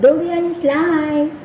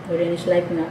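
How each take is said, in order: First: Slow, high sing-song catchphrase; lightly sung-out slogan. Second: Said in the usual way. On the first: Retold or imitated. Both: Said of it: "Panay ko pa naman sabi".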